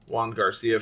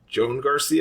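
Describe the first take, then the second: First: The first name is said like 'Juan'. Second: The first name is said like 'Joan'. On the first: "that's how I've been pronouncing it all weekend" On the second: "it could be Joan"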